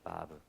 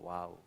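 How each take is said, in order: First: The name is said as vav. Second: The name is said as waw. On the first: The letter is read as a consonant. "자음으로 읽으면 바브" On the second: The letter is used as a vowel. "와우라고 표기도 됩니다"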